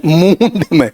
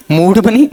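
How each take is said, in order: First: मूड said as a plain mood, long u; मूड said cleanly as English mood; correct pronunciation. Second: मूड said with a retroflex nasal, like muṇḍ; मूड mispronounced as muṇḍ, higher and louder; wrong pronunciation. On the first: Teacher correcting student, correct mood pronunciation. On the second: Teacher correcting student, wrong muṇḍ pronunciation. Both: Shown as a demonstration.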